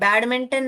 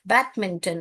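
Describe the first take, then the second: First: The d sound is pronounced clearly. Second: The d sound is weak or dropped. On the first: The speaker calls it wrong. "बैडमिंटन नहीं बोलते हम" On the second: The speaker calls it right. "बैडमिंटन ऐसे बोलते हैं"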